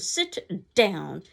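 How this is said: It is said as a forceful exclamation.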